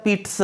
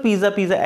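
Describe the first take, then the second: First: पिट्स said "peet-suh", with a ts sound; correct pronunciation. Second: पिज़्ज़ा said "pee-zaa", with a plain z; पिज़्ज़ा with a z in the middle, the everyday way; common mispronunciation. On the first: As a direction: put a t before the s in पिट्स. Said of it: "actual उसका pronunciation होता है". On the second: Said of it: "जिसको आप पिज़्ज़ा बोलते हो ना". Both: Shown as a demonstration.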